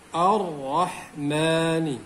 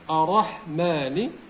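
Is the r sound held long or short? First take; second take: long; short. First: The r sound is doubled and held heavily. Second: The r sound is single and light. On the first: The speaker calls it right. "kita beratkan pada huruf Ra ini" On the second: The speaker calls it wrong. "kita meninggalkan sebutan ataupun uh, fungsi tasydid"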